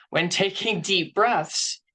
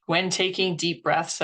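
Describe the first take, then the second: First: Slower, stretched, calming; slow soothing demonstration; slow deep-breath demo. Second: Said in the usual way. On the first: Shown as a demonstration. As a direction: breathe it out slowly as you say it. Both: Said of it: "I know this sounds silly".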